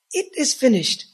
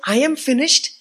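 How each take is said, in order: First: "It is finished" high and firm, falling at the end; stress on IT IS. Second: "I am finished" pushed high and loud; stress on I. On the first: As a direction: correct it firmly, leaning on "It is". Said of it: "He didn't say, "I am finished". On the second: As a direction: hit "I am finished" as the wrong version, raised and forceful. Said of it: "He didn't say". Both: Shown as a demonstration.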